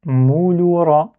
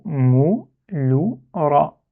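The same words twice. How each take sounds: First: "Mouloura" in one drawn-out, higher run; joined slow reading. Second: "mouloura" sounded out slowly, syllable by syllable. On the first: Teacher repeating the word for learners, "Mouloura" joined up and drawn out. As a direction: read "Mouloura" slowly with the syllables joined. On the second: Teacher reading the word to learners, "mouloura" syllable by syllable. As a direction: read "mouloura" in slow, separated syllables. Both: Shown as a demonstration. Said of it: "c'est le mot mouloura".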